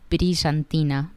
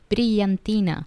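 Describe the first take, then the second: First: It is said with an Argentine Spanish accent. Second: It is said with a non-Argentine Spanish accent. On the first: "That's how I would pronounce it" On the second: "other Spanish speakers would pronounce it brillantina"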